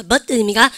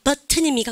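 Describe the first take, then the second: First: "버튼" with the 트 swallowed into the n; American, T unpronounced. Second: "버튼" with the 트 sounded out in full; British, T pronounced. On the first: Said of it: "미국 애들은 여러분들 발음하지 않는다". (미국식으로 "버튼"의 트를 삼켜서) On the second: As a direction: release the T in "버튼" clearly, as the British do. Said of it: "발음하지만 미국 애들은". (영국식으로 "버튼"의 트를 또렷하게) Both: Shown as a demonstration.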